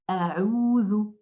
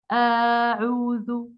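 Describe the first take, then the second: First: The first vowel is kept short. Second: The first vowel is drawn out long. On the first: The speaker calls it right. "la fatha qui est courte" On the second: The speaker calls it wrong. "Je ne dois pas dire"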